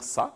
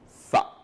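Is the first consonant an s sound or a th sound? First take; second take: s; th. First: It starts with a plain hissing s sound. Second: It starts with a th, tongue between teeth. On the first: The speaker calls it wrong. "on ne va pas dire ça" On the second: The speaker calls it right. "mais on va dire ça"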